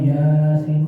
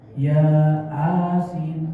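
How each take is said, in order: First: It is said smoothly as one word. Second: It is split into two words, long a. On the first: The speaker calls it right. "pokoknya Yasin" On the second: The speaker calls it wrong. "Yasin pakai Latin kan A-nya panjang"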